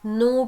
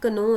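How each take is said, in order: First: The word begins with n, k silent. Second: The word begins with a sounded k. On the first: The speaker calls it right. "नो पढ़ते हैं" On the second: The speaker calls it wrong. "इसको आप कभी भी कनो नहीं पढ़ते"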